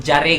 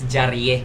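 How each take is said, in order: First: The name is said plainly, without any extra ending. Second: The name is said with a light, playful added ending. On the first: The speaker calls it wrong. "dili joon si kun jare" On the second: The speaker calls it right. "it's jarie"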